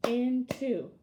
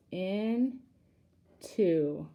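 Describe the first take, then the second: First: Said in the usual way. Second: "into" split slowly into two with a pause; two syllables. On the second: Shown as a demonstration. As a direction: separate the halves of "into" clearly. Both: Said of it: "I hear two syllables".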